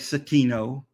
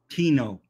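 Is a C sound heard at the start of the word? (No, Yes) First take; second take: Yes; No. First: The word starts with an extra C sound. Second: The word starts directly with a T sound. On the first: The speaker calls it wrong. "Don't say Cetino" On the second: The speaker calls it right. "CT, Tino. It's just Tinopoma"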